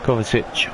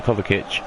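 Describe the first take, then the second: First: "Kovacic" with an s sound in the last syllable; alternative pronunciation. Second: "Kovacic" with a hard k in the last syllable; alternative pronunciation. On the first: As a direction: say "Kovacic" as KOV-a-sitch. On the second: Commentator settling on the scorer's name, "Kovacic" said with a hard k. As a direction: say "Kovacic" as KOV-a-kitch. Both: Shown as a demonstration. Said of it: "however you wanna pronounce it".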